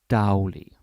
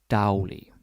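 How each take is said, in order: The two takes are said the same way.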